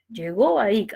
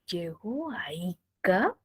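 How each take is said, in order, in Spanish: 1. El tono baja al final. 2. El tono sube al final. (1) "descendé" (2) "empieza desde abajo y sube"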